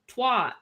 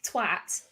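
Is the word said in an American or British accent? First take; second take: American; British. First: It is said in an American accent. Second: It is said in a British accent.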